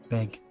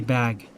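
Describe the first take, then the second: First: The vowel sounds like the 'e' of beg. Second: The vowel is the open 'a' of bag. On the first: This is how another person says it. "And they say big" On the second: This is the usual pronunciation. "They don't say bag"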